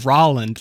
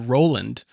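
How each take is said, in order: First: The name rhymes with Holland. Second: The name does not rhyme with Holland. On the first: The speaker calls it right. "it's Rolland, like Holland" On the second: The speaker calls it wrong. "I've always called you Roland"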